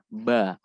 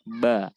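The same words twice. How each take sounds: Both takes have the same delivery.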